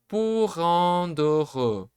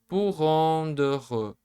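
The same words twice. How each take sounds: The two takes are said the same way.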